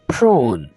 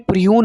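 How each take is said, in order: First: No glide comes after the r. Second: A 'y' glide comes after the r. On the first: The speaker calls it right. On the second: The speaker calls it wrong.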